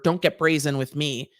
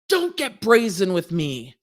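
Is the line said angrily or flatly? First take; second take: flatly; angrily. First: The line is said flatly, like reading text. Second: The line is said angrily, like a ranting judge. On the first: Only the written words come across. "You just read the judge" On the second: The judge's real manner comes across. "watching the judge sit there and go"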